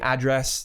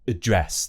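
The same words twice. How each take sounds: First: It has an American pronunciation. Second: It has a British pronunciation, starting with schwa. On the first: The speaker calls it wrong. "that's how they'd say it in the U S" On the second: The speaker calls it right. "There's a nice schwa sound there at the beginning"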